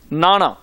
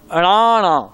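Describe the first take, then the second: First: The word starts with an n sound. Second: The word starts with an a vowel. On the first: The speaker calls it wrong. "मैं भी पहले इवें बोलदा सी नाना" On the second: The speaker calls it right. "पर यह है की है अणाणा"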